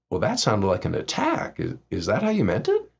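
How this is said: It is said in a calm, quiet tone. The listener is given a chance to explain. The speaker calls it right. "just very calmly say"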